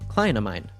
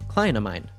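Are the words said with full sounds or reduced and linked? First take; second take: reduced; reduced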